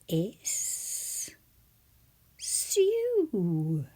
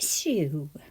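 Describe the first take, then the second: First: The word is split into two separate parts. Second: The word is said smoothly as one unit.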